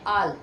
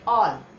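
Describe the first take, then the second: First: The vowel is an open, unrounded 'ah' sound. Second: The vowel is a rounded 'aw' sound. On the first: The speaker calls it wrong. "सब बहुत से लोग वैसे बोल देते हैं, क्या बोलते हैं? आल नहीं पढ़ेंगे" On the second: The speaker calls it right. "क्या बोलोगे? ऑल।"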